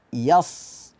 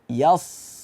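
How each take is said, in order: No difference in how they are said.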